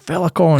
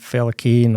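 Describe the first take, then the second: First: The last syllable sounds like 'con'. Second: The last syllable sounds like 'cane'. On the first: The speaker calls it right. "I was saying it's Felicon" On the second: The speaker calls it wrong. "because I'd been saying Felicane"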